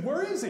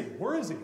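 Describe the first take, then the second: First: Where is he asked much higher and louder; a sharp, high, startled ask; lightly hammed-up surprised Where is he; mock surprised question. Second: Said in the usual way. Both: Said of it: "But he said".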